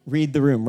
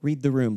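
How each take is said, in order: First: Pushed harder on the repeat, louder; exasperated second read the room. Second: Half under the breath, dry; muttered read the room. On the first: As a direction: lean into it, fed up now. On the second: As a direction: say it to yourself, flat and dry. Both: Retold or imitated. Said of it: "I'm thinking, like".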